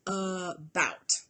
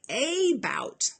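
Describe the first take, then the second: First: The first vowel is a weak schwa. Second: The first vowel is a full, clear 'a'. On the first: It is said the way people really say it. "we really say it kind of sloppy. We put all of our stress on the ending chunk" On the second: It is said the way it is spelled. "it looks like a bout"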